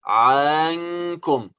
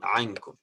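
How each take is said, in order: First: The first vowel is drawn out long. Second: The first vowel is kept short. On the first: The speaker calls it wrong. "So the mistake is to say" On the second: The speaker calls it right. "The vowel here is a short vowel"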